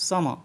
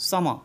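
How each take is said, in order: The two takes are said the same way.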